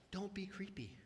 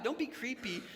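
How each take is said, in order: First: Hushed whisper for a joke; whispered aside. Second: Said in the usual way. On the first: Real, not acted. Pastor advising the congregation, in a joking whisper. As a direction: whisper it like a secret. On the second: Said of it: "repeat of the advice".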